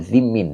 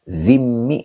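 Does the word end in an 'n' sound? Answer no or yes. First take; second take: yes; no. First: The word ends with a final n sound. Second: The word ends on a vowel with no final n. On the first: The speaker calls it right. "Yang benar adalah zimmin" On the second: The speaker calls it wrong. "zimmi apa zimmin?"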